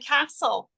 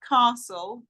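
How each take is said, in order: First: It is said with a Welsh Cardiff accent. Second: It is said with an English accent.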